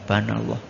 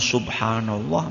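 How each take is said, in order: First: The phrase is clipped and mumbled into two syllables. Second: Every syllable of the phrase is said in full. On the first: The speaker calls it wrong. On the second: The speaker calls it right.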